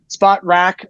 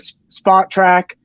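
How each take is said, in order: First: The name ends with a 'rack' sound. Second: The name ends with a 'track' sound. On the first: The speaker calls it wrong. "I can never say it right" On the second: The speaker calls it right. "got it right the first time"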